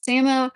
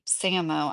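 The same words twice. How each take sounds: First: "Samo" said as SAM-oh, short a as in cat; "Samo" said firmly as SAM-oh; "Samo" with a flat a, SAM-oh, said louder; other way of saying the name. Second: "Samo" said as SAY-mo, long a; "Samo" tried out as SAY-moh, quietly; "Samo" said SAY-moh, testing it; first try at the name. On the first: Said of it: "sometimes I say Samo". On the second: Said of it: "I feel like I'm saying your name wrong". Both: Shown as a demonstration.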